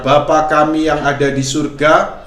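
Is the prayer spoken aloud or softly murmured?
aloud. It is spoken aloud in a full voice. The prayer is said out loud. "ini dengan suara"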